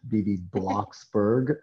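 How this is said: The name is said with an American accent. "with the American accent"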